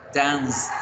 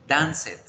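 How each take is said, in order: First: The -ed ending adds no extra syllable. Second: The -ed ending is said as an extra syllable. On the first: The speaker calls it right. "Se deben pronunciar" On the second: The speaker calls it wrong. "No podemos pronunciar"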